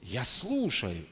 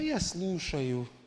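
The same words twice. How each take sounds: First: It is said in an earnest, focused way. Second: It is said in a relaxed, casual way. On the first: The listening is attentive and serious. The speaker calls it right. "И другой" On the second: The listening is half-hearted. The speaker calls it wrong. "на расслабоне"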